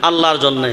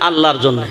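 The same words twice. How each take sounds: The two takes are said the same way.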